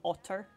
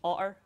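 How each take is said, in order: First: The T sound in the middle is pronounced. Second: The T sound in the middle is dropped. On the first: "It's not an otter" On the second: "part of our accent is we drop the T, so it's an otter"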